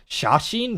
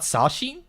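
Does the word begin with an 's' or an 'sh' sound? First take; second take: sh; s. First: The word begins with an 'sh' sound. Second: The word begins with a plain 's' sound. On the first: The speaker calls it right. "it's sash shashin" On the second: The speaker calls it wrong. "not sashin"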